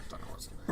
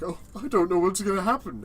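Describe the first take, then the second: First: It sounds uneasy, with a weary sigh. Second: It sounds playful and excitedly curious.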